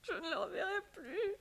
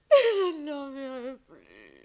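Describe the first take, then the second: First: Crying. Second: Loud, slow wail of grief; sobbing loudly. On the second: Alone, the wife wails loudly for her lost lover. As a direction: let the sob burst out. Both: Acted. She weeps for the departed lover.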